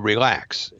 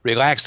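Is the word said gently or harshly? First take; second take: gently; harshly. First: The word is said gently and calmly. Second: The word is said harshly and impatiently. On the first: A kind, encouraging request. "usually they don't say it so nicely" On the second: An angry, frustrated demand. "They'll say"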